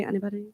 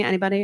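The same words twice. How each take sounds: First: The same question dropped much softer, trailing off; quieter repeat. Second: Said in the usual way. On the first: Real, not acted. Speaker to silent audience, soft trailing repeat. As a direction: ask the crowd again under the breath. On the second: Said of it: "I could say the name [name]. Anybody?".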